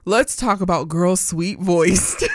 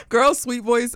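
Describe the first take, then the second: First: Said in the usual way. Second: Laughing. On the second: Real, not acted. Repeats name laughing.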